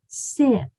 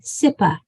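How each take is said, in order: First: The word ends cleanly on the p sound. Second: An extra uh vowel follows the final p. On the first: The speaker calls it right. "The sound for P, P is p" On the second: The speaker calls it wrong. "So there's no a at the end of these"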